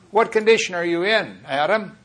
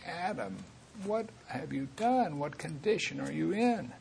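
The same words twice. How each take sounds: First: Higher, louder, stern demand; rough, demanding version of God's question; roughly. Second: Much softer, higher, near-tearful plea; God asking Adam gently, almost in tears. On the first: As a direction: press him hard with the question. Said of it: "I'm saying it kind of roughly". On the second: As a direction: ask it grieving, close to tears. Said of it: "almost in tears saying". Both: Shown as a demonstration.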